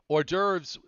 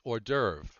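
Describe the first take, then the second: First: The word ends with an S sound. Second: The word ends without an S sound. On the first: The speaker calls it wrong. "I don't think there's an S" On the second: The speaker calls it right. "It's hors d'oeuvre, and it's understood to be plural"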